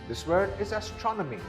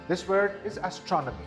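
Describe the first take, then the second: No difference in how they are said.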